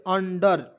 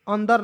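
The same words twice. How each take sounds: First: अंडर with a hard retroflex ड, not अंदर; अंडर stressed on the first syllable, clear ड; said as under. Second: अंदर said as the mistaken reading; wrong version. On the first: (अंडर, अंदर नहीं) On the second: (गलत उच्चारण अंदर) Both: Shown as a demonstration. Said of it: "अंदर नहीं".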